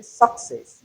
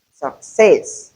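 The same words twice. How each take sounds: First: Success said as suck-cess with a full vowel; wrong pronunciation. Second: Success with a weak schwa first syllable and stress on cess; correct pronunciation. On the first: Teacher shows the common mistake in success with a full first vowel. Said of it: "you're wrong". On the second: Teacher models the right Success with a schwa first syllable. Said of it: "the first syllable is weak and we have the schwa". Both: Shown as a demonstration.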